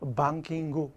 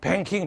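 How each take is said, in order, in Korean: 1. 뒤에 '구' 음절이 붙어서, 세 음절이에요. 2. 끝소리가 ng 받침으로 끝나고, 두 음절이에요. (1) "방킹구. 이렇게 해줘야 돼" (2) "잘난 체 해가지고, 뱅킹, 뱅킹, 못 알아들어"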